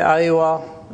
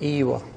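First: The word begins with an 'ai' diphthong. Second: The word begins with a plain 'e' vowel. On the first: This is the city way of saying yes. The speaker calls it wrong. "In the cities they say Aiwa" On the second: This is the countryside way of saying yes. The speaker calls it right. "in the countryside they say Ewa. And the countryside pronunciation is the correct one"

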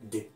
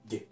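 First: The words are squeezed into one short syllable. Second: The words are squeezed into one short syllable.

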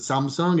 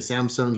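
First: It is pronounced in a Korean-style way. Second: It is pronounced in an American-style way. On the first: This is how the company itself says it. "We pronounce it Samsung" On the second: This is how people locally say it. "I think you say Samsung here"

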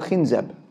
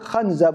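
First: The first vowel is an i sound. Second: The first vowel is an a sound. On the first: "a shaytan by the name of" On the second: "with a fatha"

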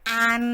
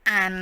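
First: The syllable is said in Mandarin first tone. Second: The syllable is said in Mandarin second tone. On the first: "ตีอีก็คำที่หนึ่งนะคะ" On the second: "ตีเออก็ตัวที่สองนะคะ"

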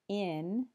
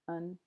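First: The word has a full vowel. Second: The word has a weak, reduced vowel. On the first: "instead of in" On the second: "you'll hear un, similar to on"

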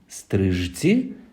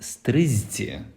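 First: The middle consonant sounds like 'zh'. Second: The middle consonant sounds like 'z'. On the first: "Пишемо стрижці" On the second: "вимовляємо стризці"

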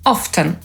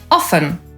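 First: The t sound is clearly pronounced. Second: The t sound is not pronounced. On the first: This is the older pronunciation. "z wyraźnym ty" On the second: This is the more modern pronunciation. "bardziej współczesną wymowę"

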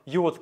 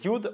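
First: Both words are said fully as separate syllables. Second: The two words are shortened into one syllable. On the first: "or you would" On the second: "как сокращенно"

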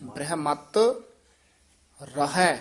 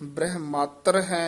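First: There is a short break between the words. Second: The two words run together without a break. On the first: The speaker calls it right. "थोड़ा जा रुक के बोलेंगे फिर शुद्ध बोलिया जाएगा" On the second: The speaker calls it wrong. "नहीं कहना"

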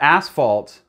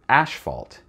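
First: The first consonant is a plain s sound. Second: The first consonant is a sh sound.

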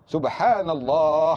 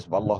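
First: It is said slowly and carefully. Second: It is said hurriedly and rushed.

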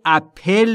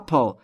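First: An extra vowel sounds between the P and L. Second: No vowel sounds between the P and L. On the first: The speaker calls it wrong. "اپل نیست" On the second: The speaker calls it right. "بین P و L صدایی وجود نداره"

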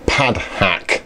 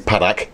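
First: It is said slowly. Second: It is said fast.

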